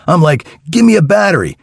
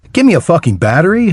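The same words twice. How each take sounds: First: Said in the usual way. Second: Mocking, talking down with a rising scoff; sneering repeat of his request; condescending. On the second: A narrator's reading. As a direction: throw the words back at him with disdain. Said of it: "I said condescendingly".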